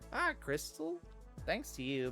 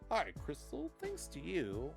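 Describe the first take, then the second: First: It is said in a put-on character voice. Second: It is said in his ordinary voice.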